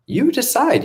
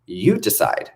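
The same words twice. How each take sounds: First: "You decide." flung up high, stressing "You"; much higher, emphatic. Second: Said in the usual way. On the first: Shown as a demonstration. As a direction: throw it back at them, high and pointed.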